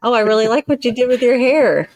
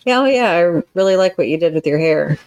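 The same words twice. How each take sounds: First: High, sugary fake praise; mock-sweet compliment. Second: Offhand, dismissive praise; grudging compliment. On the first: A counselor demonstrates a hollow compliment to her listener, mock-sweet. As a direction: gush so it rings false. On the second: A counselor demonstrates a grudging compliment to her listener, dismissive. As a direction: toss it off as if you don't care. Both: Shown as a demonstration. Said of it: "two totally different things".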